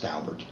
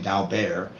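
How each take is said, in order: First: The name is pronounced in an English way. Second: The name is pronounced in a French way. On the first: The speaker calls it right. "no, it's Daubert" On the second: The speaker calls it wrong. "particularly people who know how to speak French"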